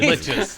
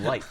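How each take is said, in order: First: The word is said with a ch sound. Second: The word is said with a hard k sound. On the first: This is the form they later learned. The speaker calls it right. "found out they're liches" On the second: This is how the group used to say it. The speaker calls it wrong. "we called them likes"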